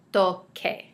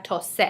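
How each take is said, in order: First: "toque" said with a hard K sound, "TOH-keh"; correct hard C. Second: "tose" said with a soft S sound, like "TOH-seh"; wrong soft-C reading. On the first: Spanish teacher modelling the correct hard-C form for students. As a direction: give "toque" a clear hard K before the E. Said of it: "keep the hard C sound". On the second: Spanish teacher showing students the mistaken soft sound. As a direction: say "tose" with the C softened to S, as the wrong example. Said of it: "without the Q U, we have tose". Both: Shown as a demonstration.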